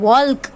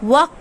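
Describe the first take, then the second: First: The word is said with an L sound. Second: The word is said with no L sound. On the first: The speaker calls it wrong. "We will not speak walk. It is not walk" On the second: The speaker calls it right. "Here L is silent"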